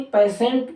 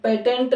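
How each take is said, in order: First: पेशेंट as pay-sent; sibilant middle. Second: पेटेंट as pay-tent; T sound. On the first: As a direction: use an S-like sound mid पेशेंट. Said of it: "पेशेंट पढ़ा जाता है". (पेशेंट में ट की जगह श) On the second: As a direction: use a T in the middle of पेटेंट. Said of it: "पेटेंट नहीं". (पेटेंट में ट बोलें) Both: Shown as a demonstration.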